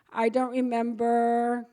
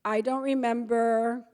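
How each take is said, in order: Both takes have the same delivery.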